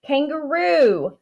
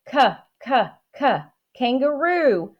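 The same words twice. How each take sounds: First: Said in the usual way. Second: "k-, k-, k, kangaroo" with the k sound split off and repeated before the whole word. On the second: Shown as a demonstration. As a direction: tap out the k sound three times, then say "kangaroo" whole. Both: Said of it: "starts with the letter K".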